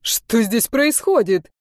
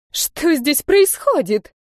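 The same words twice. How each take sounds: First: Slower, mildly panicked question; mild hysterical echo. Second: High, slow outraged cry; indignant shout. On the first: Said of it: "истерически вторил мне". (лёгкая истерика, медленно) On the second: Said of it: "возмущённо закричала". (возмущённый высокий крик) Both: A narrator's reading.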